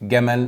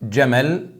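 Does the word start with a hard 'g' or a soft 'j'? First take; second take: hard g; soft j. First: It begins with a hard 'g' sound. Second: It begins with a soft 'j' sound. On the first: This is everyday Egyptian speech. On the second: This is the Quranic reading.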